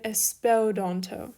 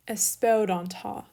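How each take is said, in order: First: Teacher slips, ending espeldanto on a "toh" sound; mistaken ending. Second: Espeldanta ending on an open "tah" sound; corrected ending. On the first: Teacher misreading a Greek verb form, mispronounced final vowel as "oh". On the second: Teacher correcting a slip in a Greek verb, final vowel as "ah". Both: Shown as a demonstration.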